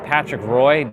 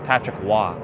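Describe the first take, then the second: First: The surname is said like English 'Roy'. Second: The surname is said like French 'Wah'. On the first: The speaker calls it wrong. "that's not how his last name is" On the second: The speaker calls it right. "R O Y is is now become Waugh. French"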